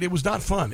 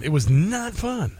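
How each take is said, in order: First: Said in the usual way. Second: "not" drawn out slowly for emphasis; stress on not. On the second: Real, not acted. Host recalling catching covid, slow stress on "not". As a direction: lean hard and long on "not".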